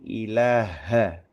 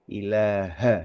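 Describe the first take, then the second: First: The word ends with an a vowel. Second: The same.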